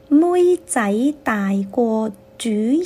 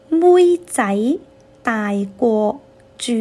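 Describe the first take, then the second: First: The phrase is spoken at normal speed. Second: The phrase is spoken slowly.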